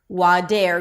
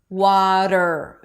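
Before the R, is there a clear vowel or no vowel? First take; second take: clear vowel; no vowel. First: A clear E vowel sits before the R. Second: The flap runs straight into R, no vowel. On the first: The speaker calls it wrong. "It's not dare" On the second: The speaker calls it right. "there is no vowel between the flap T and the R"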